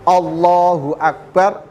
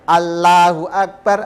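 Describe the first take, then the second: First: The L in Allahu sounds heavy and thick. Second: The L in Allahu sounds light and thin. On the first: The speaker calls it right. "Ya harus" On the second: The speaker calls it wrong. "Tidak boleh kita baca"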